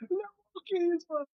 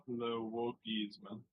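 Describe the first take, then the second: First: High, hammed-up French "Le wokisme"; mock French, pitched up. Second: Slow, soft, low French "le wokisme"; mock French, hushed; mock French, softer. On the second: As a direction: murmur "le wokisme" like a dainty Frenchman. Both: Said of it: "quote tweeting, going".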